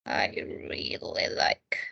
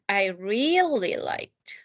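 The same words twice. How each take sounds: First: "I really like" in a soft whisper. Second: "really" slowly and clearly, word by word. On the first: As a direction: breathe "really" with no voice. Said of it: "whispered repeat". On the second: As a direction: draw out "I really liked" slowly for the class. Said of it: "slow repeat of model". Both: Shown as a demonstration.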